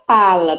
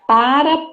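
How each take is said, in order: First: The middle consonant is an L sound. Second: The middle consonant is a tapped R sound. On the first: "troca o R pelo L" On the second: "troca o R pelo L"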